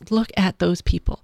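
It sounds warm, joyful and appreciative. Others' success is celebrated. The speaker calls it right. "You can say that with gratitude. You can say that with joy for them"

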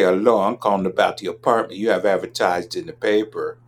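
It is said in a deliberately modified dialect. "If you modify your dialect and you say"

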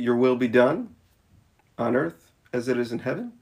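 The pause comes right after the word done. Heaven and earth are grouped as one place. The speaker calls it wrong. "do we pause in the wrong spot?"

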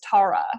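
The name is said the New Zealand way. "in New Zealand is Tara"

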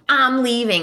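It is said in an exaggerated, dramatic way.

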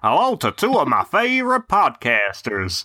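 It is read in a Texan American accent. "No, it's Texas, isn't it?"

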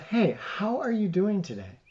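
The greeting sounds warm and sincere.

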